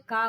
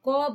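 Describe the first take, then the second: First: The vowel after k is long. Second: The vowel after k is short. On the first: The speaker calls it wrong. "का मत बोलिए" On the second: The speaker calls it right. "बिना मात्रा लगाए आप क बोलिए"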